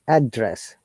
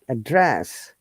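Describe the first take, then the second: First: The stress is on the first syllable. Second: The stress is on the second syllable. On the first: It is a noun naming where someone lives. "When it is noun, we stress on the first part, like address" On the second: It is a verb naming an action. "when it is a verb, we stress in the second part of the syllable of the word, like address"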